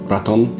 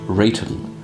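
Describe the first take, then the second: First: It is said with a Spanish accent. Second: It is said in a posh English way. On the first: "Spanish accent" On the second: "Could be very posh English and say Rayton"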